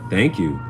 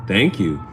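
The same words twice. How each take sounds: The two takes are said the same way.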